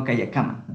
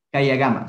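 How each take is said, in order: First: "kaya kama" with a k starting kama; wrong hard K. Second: "Kaya gama" with a voiced g starting gama; G for written K. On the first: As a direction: say "kaya kama" as spelt, with voiceless k. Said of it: "No kaya kama". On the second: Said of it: "se pronuncia con la G". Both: Shown as a demonstration.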